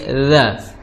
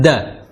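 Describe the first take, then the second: First: It starts with a soft dh sound. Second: It starts with a plain d sound. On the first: The speaker calls it right. "tapi dza" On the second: The speaker calls it wrong. "Jangan da"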